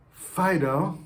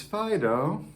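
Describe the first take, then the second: First: Fido called higher and louder; scolding call. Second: Fido said gently with a rise; fond call. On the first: Owner scolding the dog Fido, loudly. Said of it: "saying your child's name, or you say your dog's name". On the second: Owner calling the dog Fido, fondly. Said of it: "or you say your dog's name". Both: Shown as a demonstration.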